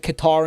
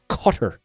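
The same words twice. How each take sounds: First: The name does not sound like 'cutter'. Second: The name sounds like the word 'cutter'. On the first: This is the older, familiar pronunciation. "we're not supposed to pronounce it Qatar anymore" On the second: This is the newly preferred pronunciation. "like a cigar cutter"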